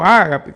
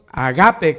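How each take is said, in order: First: The stress is on the first syllable. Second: The stress is on the second syllable. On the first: "como que tuviera acento en la A" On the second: "como que en la segunda A"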